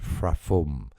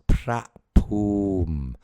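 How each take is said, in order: First: The consonants are said as F sounds. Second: The consonants are said as plain P sounds. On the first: The speaker calls it wrong. "Not as you pronounce it, the San Frafum with the P H" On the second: The speaker calls it right. "is pronounced in Thai as Prapum ... it's pronounced like a straight P"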